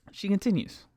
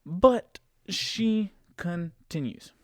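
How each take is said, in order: First: "She continues" in one high, falling sweep; brisk exasperated repeat. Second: Very slow, high "But she continues"; drawn-out exasperation. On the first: Storyteller moving on with passenger's complaint, "She continues" said undrawn and high. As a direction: say "She continues" without stretching it, pitched high. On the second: Storyteller exasperated that passenger keeps going, "But she continues" drawn out slowly. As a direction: stretch each syllable of "continues" for drama. Dramatic repeat of the story turn. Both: Real, not acted.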